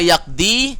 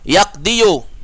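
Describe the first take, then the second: First: The word ends after 'di' with no 'yu'. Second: The word ends with an extra 'yu' syllable. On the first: It is easy and preferred. The speaker calls it right. "Kalau dibaca yakdi, bisa" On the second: It is possible but heavy and disliked. The speaker calls it wrong. "Yakdiyu bisa, tapi ya berat"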